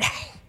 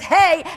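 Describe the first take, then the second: First: It is said with breathy air from the throat. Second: It is said plainly, without extra breath.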